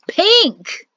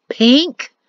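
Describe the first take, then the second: First: "Pink!" much higher, loud, falling; exasperated cry. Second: PINK rising in disbelief; incredulous question. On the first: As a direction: blurt "Pink!" in outrage. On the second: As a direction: ask "Pink?" with a disbelieving rise. Perrin holding up pink banner. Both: Acted.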